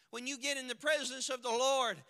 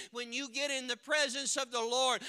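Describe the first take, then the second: No difference in how they are said.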